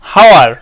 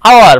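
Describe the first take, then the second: First: The word begins with an h sound. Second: The word begins with a vowel sound. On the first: The speaker calls it wrong. "কিন্তু আমরা কি এটাকে হাওয়ার উচ্চারণ করি?" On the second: The speaker calls it right. "তার মানে আমরা এইচটাকে উচ্চারিত রাখছি না"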